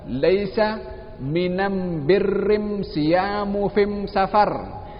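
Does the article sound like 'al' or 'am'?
am. The article is pronounced as am, tribal dialect style. It uses the listeners' own dialect to win their hearts.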